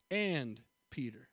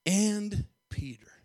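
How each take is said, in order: First: "and Peter" dropped low and slow; stress on and Peter. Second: "and Peter" drawn out slowly; stress on and Peter. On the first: Preacher stressing "and Peter" to the church, low and slow. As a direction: lean into "and Peter" softly. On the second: Preacher lingering on "and Peter" for the church. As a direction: let "and Peter" hang. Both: Shown as a demonstration. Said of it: "putting an emphasis on that man".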